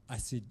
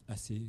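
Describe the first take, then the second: No difference in how they are said.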